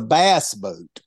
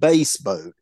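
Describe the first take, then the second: First: Bass is said to rhyme with mass. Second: Bass is said to rhyme with face. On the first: It names the fish. The speaker calls it right. "That's a fish" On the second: It names the musical low voice or instrument. The speaker calls it wrong. "you're not fishing for anything musical. It is not a damn bass boat"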